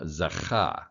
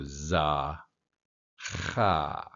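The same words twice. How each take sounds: First: "zacha" with the weight on "cha", falling at the end; stress on last syllable. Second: "za" and "cha" split apart with a pause between them; syllable by syllable. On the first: Teacher showing students the final stress in "zacha". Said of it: "your emphasis on the last syllable". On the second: Teacher sounding out "zacha" one syllable at a time for beginners. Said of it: "take each syllable at a time". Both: Shown as a demonstration.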